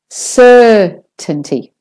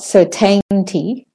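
First: The first syllable is stressed and long. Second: The first syllable is short and weak. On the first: The speaker calls it right. "So the first syllable is stressed and longer" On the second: The speaker calls it wrong. "So it's not certainty"

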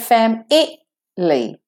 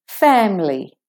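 First: The middle vowel is pronounced as a full syllable. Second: The middle vowel is dropped, giving two syllables. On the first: The speaker calls it wrong. "We don't say fam-I-ly" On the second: The speaker calls it right. "The I is missing"

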